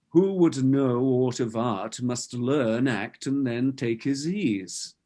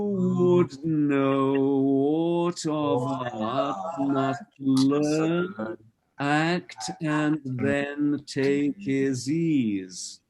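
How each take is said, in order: First: The words are spoken in a normal everyday way. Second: The words are articulated in a greatly exaggerated way.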